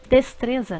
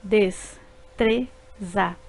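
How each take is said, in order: First: Said in the usual way. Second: Des-tre-za drawn out slowly in three beats; slow syllables. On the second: Shown as a demonstration. Teacher slowly splitting destreza into syllables. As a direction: stretch des-tre-za one syllable at a time. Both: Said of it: "formadas por três sílabas".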